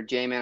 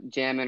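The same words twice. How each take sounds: First: Jamin with a long a, like "jay-min"; long-a pronunciation. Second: Jamin with a short a, like "jam-in"; short-a pronunciation. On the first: Podcaster offering another way to say a name, Jamin said as "jay-min". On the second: Podcaster unsure of a player's name, Jamin said as "jam-in". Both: Shown as a demonstration. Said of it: "I don't know how you pronounce".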